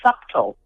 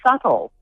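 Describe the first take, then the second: First: The B sound is pronounced in the word. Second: The B sound is left out of the word. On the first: The speaker calls it wrong. "Some people want to say subtle" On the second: The speaker calls it right. "the B is silent"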